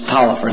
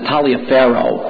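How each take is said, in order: First: The name is said as Tolliver, with fewer syllables. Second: The name is said as Taliaferro, following its spelling. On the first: The speaker calls it right. "but it was pronounced Tolliver" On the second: The speaker calls it wrong. "If you looked at it, you would have pronounced it Taliaferro"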